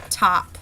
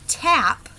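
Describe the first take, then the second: First: "top", tap with an open back A; Irish-style tap, opened to "top". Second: "tap" with a front American a; short A. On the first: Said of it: "open sound that kind of closes off the nose". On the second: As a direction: say "tap" with the a as in cat. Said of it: "whereas it would be tap". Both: Shown as a demonstration.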